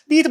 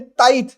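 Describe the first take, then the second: First: The vowel sounds like 'ee'. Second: The vowel sounds like 'eye'. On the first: "तीथ बुलाने में ज्यादा अच्छा लगता है ना" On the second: "ये आप याद रखेंगे"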